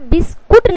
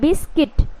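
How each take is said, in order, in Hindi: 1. दूसरा अक्षर kut जैसा सुनाई देता है। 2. दूसरा अक्षर kit जैसा सुनाई देता है। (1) "यहाँ पे बिस्कुट नहीं पढ़ना है" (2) "यू जो है यहाँ पे साइलेंट है तो बिस्किट हुआ"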